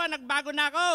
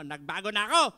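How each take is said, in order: First: Said louder and higher. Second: Said in the usual way. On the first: Shown as a demonstration. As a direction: say it big, with conviction. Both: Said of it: "Pag malaki mo".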